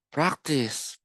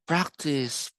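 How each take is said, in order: Both takes have the same delivery.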